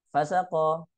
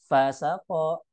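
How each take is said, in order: First: Fasako as a single word; run together. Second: Fa, then sako, slower; separated words. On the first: Teacher showing what Arabs would hear as fasik, run together. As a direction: say "fasako" joined, no break after fa. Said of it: "ini artinya fasik". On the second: Teacher showing fa then sako, separated words. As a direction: say "fasako" with fa set apart from sako. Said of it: "fa kemudian sako". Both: Shown as a demonstration.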